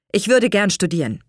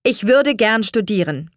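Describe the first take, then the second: First: Said in the usual way. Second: Firm, raised and slightly forceful. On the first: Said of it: "eröffnete er seinen Eltern". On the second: A narrator's reading. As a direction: state the wish with resolve. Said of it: "sagte er mit fester Stimme". (mit fester Stimme)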